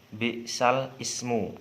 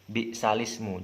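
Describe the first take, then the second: First: The two words are said separately. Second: The two words are joined together. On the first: The speaker calls it wrong. "Jika di Rasam Usmani" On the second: The speaker calls it right. "Jadi disambung"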